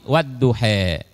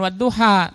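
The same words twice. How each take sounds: First: The word is said in a Betawi-sounding reading. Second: The word is said in the usual standard reading. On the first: This is how it is read in the Warsh tradition. "tapi wadduha ... itu bacaan Warsh" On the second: This is how it is usually read locally. "bukan wadduha"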